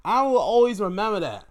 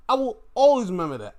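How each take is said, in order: First: High, loud emphatic declaration; excited. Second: High, loud and fast repeat; excited, faster. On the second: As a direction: rush the repeat even higher and quicker. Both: Real, not acted.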